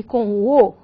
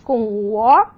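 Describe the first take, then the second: First: "O" said with a closed vowel, as ô. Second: "O" said with an open vowel, as ó. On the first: Teacher contrasting vowels for students, "O" said closed. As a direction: round and close the letter "O" into ô. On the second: Teacher contrasting vowels for students, "O" said open. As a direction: open up the letter "O" into ó. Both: Shown as a demonstration. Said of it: "posso falar aberto e fechado também".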